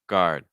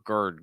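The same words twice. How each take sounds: First: A clear 'ah' vowel comes before a light R. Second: A strong 'er' sound replaces the 'ah' vowel. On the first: The speaker calls it right. "the key part is that ah sound a little bit before the R" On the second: The speaker calls it wrong. "So it's not er"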